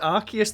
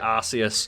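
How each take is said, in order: First: The first syllable does not sound like arse. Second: The first syllable sounds like arse. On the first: This is the official way to say the name. The speaker calls it right. "the official pronunciation" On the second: This is a jokey way to say the name. The speaker calls it wrong. "because it sounds like arse"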